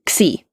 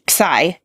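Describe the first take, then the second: First: The letter name has the Greek-style pronunciation. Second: The letter name has the English-style pronunciation. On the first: "and one's more Greek" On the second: "one pronunciation is more English"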